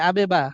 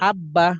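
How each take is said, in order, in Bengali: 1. প্রথম b ঝাঁকুনি দিয়ে ছাড়া হয়। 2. b ধরে রেখে মসৃণভাবে দুইবার বলা হয়।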